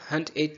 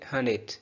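First: The t at the end of hunt is pronounced. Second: The t at the end of hunt is dropped. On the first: "अगर लिखा हो हंट it" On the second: "तो बोलेंगे हन it"

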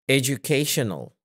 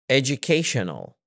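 No difference in how they are said.

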